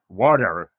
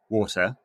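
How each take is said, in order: First: It is said in an American accent. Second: It is said in a British accent.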